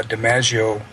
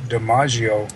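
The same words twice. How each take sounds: First: DiMaggio with the "a" of "cat"; flat-A pronunciation. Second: DiMaggio with "ah" in the second syllable; broad-A pronunciation. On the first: Host gives the alternative, DiMaggio with "a" as in "cat". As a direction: say DiMaggio as "dee-MAZH-ee-oh", short A. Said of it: "you can also pronounce". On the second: Host relays how the guest rhymes his name, DiMaggio with "ah". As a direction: say DiMaggio as "dee-MAH-zhee-oh". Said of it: "How do you pronounce your". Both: Shown as a demonstration.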